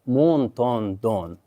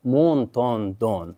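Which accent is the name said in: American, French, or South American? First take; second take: French; French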